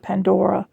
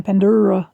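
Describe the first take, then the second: First: Pandora with a clear "pan-DOR-uh"; careful pronunciation. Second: Pandora as "pan-DOO-ruh"; Southern mispronunciation. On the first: Southern speaker correcting herself, Pandora said as pan-DOR-uh. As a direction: say Pandora with an "or" vowel in the middle. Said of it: "'cause I'm Southern and I was saying Pandora". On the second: Southern speaker showing her slip, Pandora said as pan-DOO-ruh. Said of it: "I'm gonna struggle when I say the word Pandora". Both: Shown as a demonstration.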